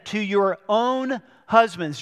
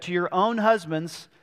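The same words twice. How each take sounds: First: "own" leaned on, the phrase slowed; stress on own. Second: Said in the usual way. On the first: Shown as a demonstration. Pastor repeating the verse to the church, stressing "own". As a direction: weigh "to your own husbands" slowly, pressing "own". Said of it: "and it says this again". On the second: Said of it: "just like Peter said".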